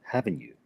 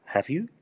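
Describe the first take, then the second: First: "haven't you" lower and falling; "haven't you" falling to confirm; falling tag. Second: "Have you" rising high at the end; "Have you" with a clearly rising tune; rising question tag. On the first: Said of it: "lo estamos bajando". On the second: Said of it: "lo que estás haciendo es preguntando". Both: Shown as a demonstration.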